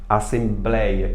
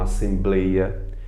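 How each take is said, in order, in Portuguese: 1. O ditongo tem vogal aberta. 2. O ditongo tem vogal fechada. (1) "Assembleia e não assembleia" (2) "e não assembleia"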